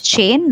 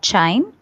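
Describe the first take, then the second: First: The vowel sounds like 'ay' in 'day'. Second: The vowel sounds like 'eye' in 'line'. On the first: The speaker calls it right. "it's chain" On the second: The speaker calls it wrong. "not chine"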